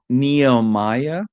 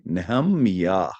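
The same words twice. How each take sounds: First: The name is said with English pronunciation. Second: The name is said with Hebrew pronunciation. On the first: The speaker calls it wrong. "You can't go by English transl- uh, pronunciation, right? We just make it sound nice" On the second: The speaker calls it right. "that is nothing like the name Nehemiah"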